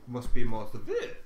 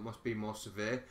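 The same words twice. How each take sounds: First: It is said in a put-on character voice. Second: It is said in a natural voice.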